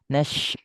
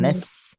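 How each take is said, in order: First: The consonant is a hushing sh sound. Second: The consonant is a plain hissing s sound. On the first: The speaker calls it right. "Ni nash" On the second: The speaker calls it wrong. "bukan nas. Nas kurang"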